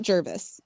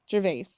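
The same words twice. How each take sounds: First: "Jervis" starting like "germ", short "vis" ending; wrong pronunciation demo. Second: "Gervais" ending in a long "vay"; pronunciation demo. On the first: Host showing the rejected pronunciation, "Jervis" ending in "vis". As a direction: say "Jervis" to end in "vis", not "vay". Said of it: "Jervis sounds like, like a germ". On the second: Host showing how the name is pronounced, "Gervais" ending in "vay". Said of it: "I'm pretty sure it's Gervais". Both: Shown as a demonstration.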